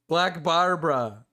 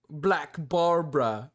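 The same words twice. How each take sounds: First: Said in the usual way. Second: Put-on slow, half-hearted try at the YouTuber's accent on Black Barbara; failed accent imitation. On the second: Streamer botching the YouTuber's accent, slow and half-hearted. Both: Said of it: "I can't do his accent".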